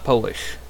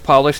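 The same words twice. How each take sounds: First: The first vowel sounds like the 'o' in 'go'. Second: The first vowel sounds like the 'o' in 'pot'. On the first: It means coming from Poland. "not Polish" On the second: It means shining or buffing. "This is polish"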